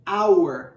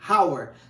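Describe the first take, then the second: First: The word begins directly with the vowel sound. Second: The word begins with an audible breathy h sound. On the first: "ele é mudo" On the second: "o H em inglês ele tem som de, é como se fosse o nosso R"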